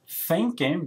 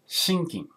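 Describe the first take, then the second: First: The word begins with a TH sound. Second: The word begins with an SH sound.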